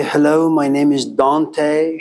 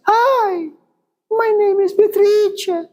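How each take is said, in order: First: Said in the usual way. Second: Squeaky falsetto, far higher; very high-pitched voice. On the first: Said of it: "she's gonna sound like this". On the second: Shown as a demonstration. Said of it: "her voice is very, very, very high-pitched".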